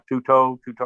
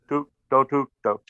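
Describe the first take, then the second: First: The stress does not fall on the first syllable. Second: The stress falls on the first syllable. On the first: The speaker calls it wrong. "so it doesn't come out tutto tutto or whatever" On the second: The speaker calls it right. "you stress the first syllable"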